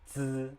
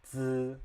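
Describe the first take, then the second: The two takes are said the same way.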